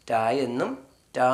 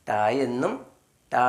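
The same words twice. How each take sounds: The two takes are said the same way.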